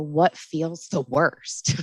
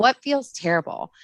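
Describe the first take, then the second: First: Slow gentle question. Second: Lifted question. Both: Retold or imitated. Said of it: "I just kinda go in and say".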